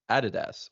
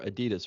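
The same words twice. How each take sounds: First: It uses a non-American pronunciation of the name. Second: It uses an American pronunciation of the name.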